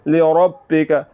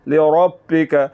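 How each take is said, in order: First: The r is said heavy and full. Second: The same.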